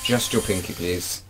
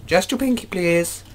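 First: Said in the usual way. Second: Pinky up, in a prissy high squeak; mock posh plea, much higher; high posh falsetto. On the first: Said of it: "can we put your pinky out". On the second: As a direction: ask it like a fussy toff in falsetto. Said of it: "how dashing my British accent is".

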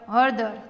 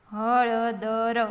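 First: Said in the usual way. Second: Every letter voiced separately; sounded out. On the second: Shown as a demonstration. Teacher spelling for beginning readers, sounded out. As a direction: draw હળદર out as ha-la-da-ra.

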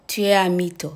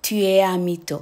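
First: Tu es un mytho, slow, each syllable clear; slow French demo. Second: Said in the usual way. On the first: Shown as a demonstration. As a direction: spell out tu es un mytho slowly for learners. (พูดช้าๆ ชัดๆ แบบสอนออกเสียง) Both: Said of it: "ก็พูดว่า".

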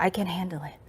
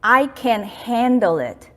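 First: Quiet whispered "I can handle it", falling at the end; whispered self-talk. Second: Very slow, deliberate "I can handle it" with weight on "I"; calm self-talk. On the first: Telling yourself you can cope, whispered. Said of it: "핸들 할 수 있다". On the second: Doctor teaching a self-talk phrase, slow and deliberate. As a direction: say "I can handle it" slowly, every word placed. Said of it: "이거 무조건 연습해야 돼요". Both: Shown as a demonstration.

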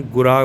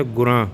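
First: ਗੁਰਾ with a clean, non-nasal final aa; ਗੁਰਾ with no nasal sound at the end; correct oral ending. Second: ਗੁਰਾਂ said with a nasal final vowel; ਗੁਰਾਂ with the ending nasalised, as a mistake; wrong nasal ending. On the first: Teacher giving learners the correct ਗੁਰਾ without nasalisation. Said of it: "ਇਹਨੂੰ ਗੁਰਾ ਬੋਲਣਾ". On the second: Teacher imitating learners who say ਗੁਰਾਂ with a nasal ending. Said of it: "ਗੁਰਾਂ ਨਹੀਂ ਕਹਿਣਾ". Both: Shown as a demonstration.

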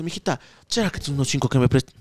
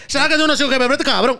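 First: Put-on low, soft, slurry drunk plea; drunk man asking. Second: Put-on higher, whiny drunk plea; mock pleading drunk. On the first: Drunk man begs a girl for five dollars, low and soft. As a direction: mumble it like a drunk begging for cash. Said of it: "ya chumado, dice". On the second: Retelling the drunk's plea for money, pitched higher and whining. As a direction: beg for cash in a higher whine.

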